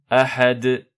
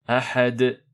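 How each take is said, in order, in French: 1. Il se termine sur la consonne finale, avec un léger rebond. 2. Il se termine sur la consonne finale, avec un léger rebond.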